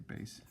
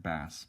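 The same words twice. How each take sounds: First: BASS with a long 'ay', like "base"; the music term "bass", long vowel as in "case". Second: BASS with a short flat 'a', as in the fish; the misreading "bass", short vowel as in "pass". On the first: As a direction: say "bass" to rhyme with "face". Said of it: "we say bass". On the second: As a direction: say "bass" to rhyme with "class". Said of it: "we don't say bass". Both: Shown as a demonstration.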